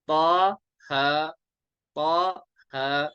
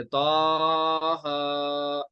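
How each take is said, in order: First: "पा, हा" evenly held, each syllable separate; correct one-alif length. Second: "ता, हा" drawn out with a swooping note; wrong overstretched reading. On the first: Teacher correcting the reading for students, measured. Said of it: "ऐसे नहीं पढ़ेंगे". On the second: Teacher showing students how not to read, swooping. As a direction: overstretch and bend "ता, हा". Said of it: "इसको हम ऐसे नहीं पढ़ेंगे". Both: Shown as a demonstration.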